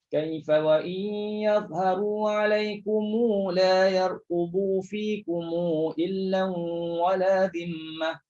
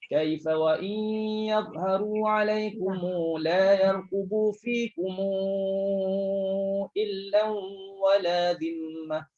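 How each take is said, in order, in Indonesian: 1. Setiap 'kum' mendapat vokal yang ditahan dua ketukan. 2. 'kum' sebelum 'illa' mendapat vokal yang ditahan empat ketukan. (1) "silahkan semua minjamak ... Dua harakat, semua dua harakat" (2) "untuk yang bertemu hamzah barulah baca dengan empat harakat"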